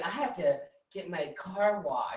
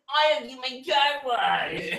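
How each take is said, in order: First: It is said in a plain, normal way. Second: It is said in a mocking SpongeBob voice.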